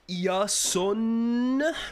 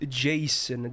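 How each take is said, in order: First: The name begins with a Y sound. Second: The name begins with a J sound. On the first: The speaker calls it right. "That's how I pronounce it" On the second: The speaker calls it wrong. "His name is not Jason. That is an American name"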